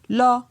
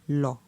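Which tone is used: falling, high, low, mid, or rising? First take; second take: mid; low. First: The syllable is said on a mid tone. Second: The syllable is said on a low tone. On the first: "Pour un ton moyen" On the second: "pour un ton bas"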